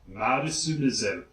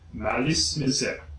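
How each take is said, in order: First: The name is said with a Japanese accent. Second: The name is said with French pronunciation. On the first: "if you want to say it with a Japanese accent" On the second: "the name is French, so Malice Misère is fine"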